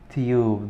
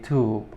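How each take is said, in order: First: It is said in a British accent. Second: It is said in an American accent. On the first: "This is in uh, the British accent" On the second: "if I want to pronounce it like the American accent"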